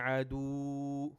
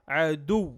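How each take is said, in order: First: The final sound is stretched out long. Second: The final sound is short and forceful. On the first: The speaker calls it wrong. "We don't say عدو" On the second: The speaker calls it right. "عدو with strength"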